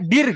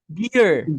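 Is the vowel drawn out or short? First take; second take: short; drawn out. First: The vowel is short and clipped. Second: The vowel is long and drawn out. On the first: The speaker calls it wrong. "Sebenarnya nggak dir gitu" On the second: The speaker calls it right. "ditarik deer"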